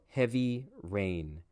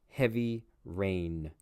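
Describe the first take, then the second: No difference in how they are said.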